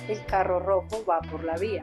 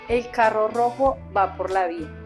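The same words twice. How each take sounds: First: It is said at a normal volume. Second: It is said at a loud volume. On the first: "Ahora lo decimos en un volumen más normal" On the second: "Vamos a iniciar con volumen alto"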